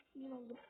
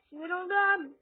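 First: Said in the usual way. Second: Frustrated. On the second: Real, not acted.

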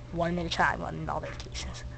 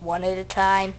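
First: Whispered, no voice; whispering. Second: Said in the usual way. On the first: Pretend. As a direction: breathe the words out as a whisper. Repeats boarding rule.

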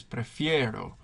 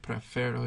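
First: Prefiero with a stressed ie glide, "preh-FYEH-ro"; stem change pronounced. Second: Prefero with a plain e, "preh-FEH-ro"; wrong stem pronunciation. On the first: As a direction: say prefiero with a clear ie in the stressed syllable. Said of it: "stem change is always pronounced". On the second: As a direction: say prefero without any i-glide in the stem. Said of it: "It's not prefero". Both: Shown as a demonstration.

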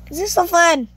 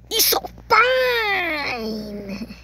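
First: Said in the usual way. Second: FUN stretched very long, sliding down; drawn-out FUN. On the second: Real, not acted. Player enjoys the game, FUN hugely drawn out. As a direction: hold FUN in one long falling cry.

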